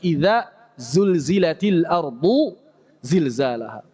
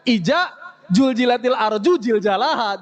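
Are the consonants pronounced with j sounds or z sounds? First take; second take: z sounds; j sounds. First: The z-type letters keep their distinct z sounds. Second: The z-type letters are mostly said as j. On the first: The speaker calls it right. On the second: The speaker calls it wrong.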